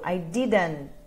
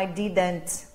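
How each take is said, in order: First: The T sounds are dropped and merged together. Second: The T sounds are clearly pronounced separately. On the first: The speaker calls it right. "os três virou só um" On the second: The speaker calls it wrong. "E não"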